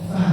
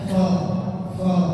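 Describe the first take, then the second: First: The syllable is pronounced thin, with an open vowel. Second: The syllable is pronounced thick, with a rounded vowel. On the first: The speaker calls it right. "fa tipis" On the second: The speaker calls it wrong.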